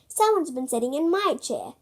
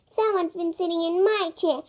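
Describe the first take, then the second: First: It is said in a medium-sized voice. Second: It is said in a tiny, small voice. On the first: "in a medium-sized voice" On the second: "in a teeny tiny voice"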